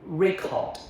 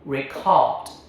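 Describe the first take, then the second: First: The stress is on the first syllable. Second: The stress is on the second syllable. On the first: It is a noun meaning a written document. "As a noun, a written document, first syllable" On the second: It is a verb meaning to capture audio. "As a verb, to capture audio, second syllable"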